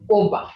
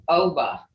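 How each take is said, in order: First: Oba with a short, rounded Creek O; Creek pronunciation. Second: Oba with an English long O; English-style mispronunciation. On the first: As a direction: say oba without the English "oh" glide. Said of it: "in the Creek language". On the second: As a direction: say oba as "OH-buh". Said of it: "If you say O". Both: Shown as a demonstration.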